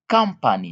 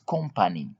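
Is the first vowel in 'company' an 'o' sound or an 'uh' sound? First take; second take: uh; o. First: The first vowel is an 'uh' sound. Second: The first vowel is an 'o' sound. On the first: The speaker calls it right. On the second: The speaker calls it wrong.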